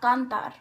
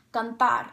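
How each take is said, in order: First: "cantar" wrongly stressed on CAN, the first syllable. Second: "cantar" stressed on TAR, the last syllable. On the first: Teacher showing the mistake, "cantar" stressed on first syllable. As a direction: say "cantar" with the weight moved to can. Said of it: "not cantar". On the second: Teacher showing the correct word, "cantar" stressed on last syllable. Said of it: "The word is pronounced". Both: Shown as a demonstration.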